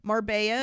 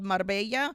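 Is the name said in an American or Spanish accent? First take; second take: American; Spanish. First: The name is said with an American pronunciation. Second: The name is said with a Spanish pronunciation.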